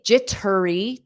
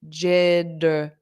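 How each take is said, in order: First: The middle consonant is a hard T sound. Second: The middle consonant is a soft D sound. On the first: The speaker calls it wrong. "I don't say jittery, turry. That sounds unnatural to me" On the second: The speaker calls it right. "native speakers pronounce T's as soft D's when it's between two vowels. So I pronounce this as jiddery"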